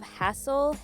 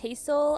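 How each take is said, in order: First: The name sounds like the word hassle. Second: The name sounds like the word hazel. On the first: "Hassel is like a word" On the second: "I would pronounce it like Hazel"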